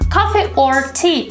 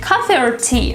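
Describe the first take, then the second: First: The word 'or' is said in full. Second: The word 'or' is reduced to 'r'. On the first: "Instead of saying" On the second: "Or becomes r"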